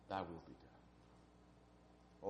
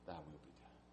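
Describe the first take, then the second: First: Slow, whispered prayer; whispered surrender. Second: Said in the usual way. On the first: Acted. Preacher repeating Jesus's prayer to congregation, slow whisper. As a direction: breathe it out slowly in a whisper.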